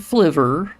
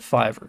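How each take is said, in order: First: It starts with an 'fl' sound: fliver. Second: It starts with a plain 'f' sound: fiver. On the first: "which would be Fliver, or however you'd want to pronounce that" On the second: "I call it Fiverr because I think that just sounds better"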